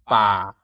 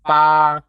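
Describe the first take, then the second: First: BA low, settling downward. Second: BA long and level at middle pitch. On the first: Teacher comparing tones for learners, low tone. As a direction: drop "Ba" to a low pitch. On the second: Teacher comparing tones for learners, level mid tone. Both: Shown as a demonstration. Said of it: "Compare it with the mid tone".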